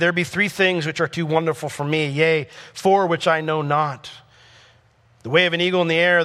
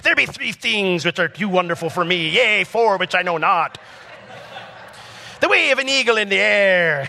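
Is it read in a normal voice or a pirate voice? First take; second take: normal voice; pirate voice. First: It is read in his normal voice. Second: It is read in a put-on pirate voice.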